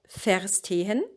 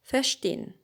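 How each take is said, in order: First: The word is said fully as written. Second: The endings are reduced, dropping the final e. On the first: The speaker calls it wrong. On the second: The speaker calls it right. "you just ignore the e"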